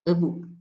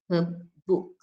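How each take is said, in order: First: The first word is reduced to a weak vowel. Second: The first word is said in its full form.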